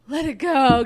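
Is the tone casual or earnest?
earnest. It is said in a heartfelt, releasing tone. Freeing oneself from a heavy burden. "Get this burden off of me"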